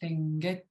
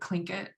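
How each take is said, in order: First: The word starts with a voiceless L. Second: The word starts with a K sound. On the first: This is how it is said in the language itself. "it's written as an L, which is a voiceless L, and you just say" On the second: This is how English speakers say it. "in English sort of became a K. People would say"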